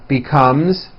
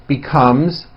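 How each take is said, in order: Both takes have the same delivery.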